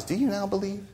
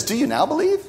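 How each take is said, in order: First: Much softer "Do you now believe?", sad and ironic; irony mixed with sadness. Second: Ironic question. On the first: Jesus to the overconfident disciples, soft and sad. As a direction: let "Do you now believe?" fall away, soft and sorrowful. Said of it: "irony mixed with sadness". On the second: Preacher voicing Jesus to the disciples, ironic high question. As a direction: ask it with pitch climbing high, "Do you now believe?" as gentle irony. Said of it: "That's irony". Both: Acted.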